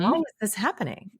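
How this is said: The question sounds open, interested and curious. I want to learn what this is about. The speaker calls it right. "It's a curiosity. It's almost like a tone of voice"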